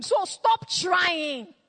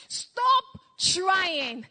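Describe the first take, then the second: First: Slow, drawn-out shout; preaching shout. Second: Said in the usual way. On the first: Acted. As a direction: cry it out slowly to the congregation. Preacher cries out to the crowd.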